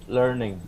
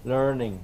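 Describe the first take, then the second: Both takes have the same delivery.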